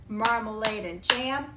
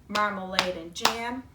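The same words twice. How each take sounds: The two takes are said the same way.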